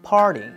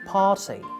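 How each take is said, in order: First: The R is pronounced, with the tongue curled back. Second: The R is not pronounced; the vowel is long instead. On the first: "In American English, it's like the R sound. We roll the tongue to pronounce R" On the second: "in British English, it's like the long R sound"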